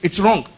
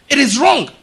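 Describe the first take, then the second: First: Said in the usual way. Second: "It is wrong" said higher and louder, leaning on "wrong"; emphatic. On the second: Acted. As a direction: land "wrong" as a firm final verdict, raised and loud. Repeated verdict, final rising.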